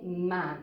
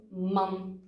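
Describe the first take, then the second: First: "man" with a long A, like "maan"; long Dutch A, "maan"; long vowel. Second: "man" with a short A; short Dutch A in "man"; short vowel. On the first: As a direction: stretch the A in "man". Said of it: "Il faut que ce soit un son long". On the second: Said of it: "donc c'est un son court". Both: Shown as a demonstration.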